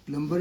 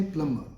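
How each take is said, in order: First: 'Plumber' with the b sounded; wrong pronunciation. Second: 'plumber' as plum-uh, no b; silent B. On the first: Teacher rejects it for learners, B sounded. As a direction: say 'Plumber' as plum-ber, voicing the b. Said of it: "completely wrong". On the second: Teacher models for learners, silent B. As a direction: say 'plumber' leaving out the b sound. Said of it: "B is silent". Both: Shown as a demonstration.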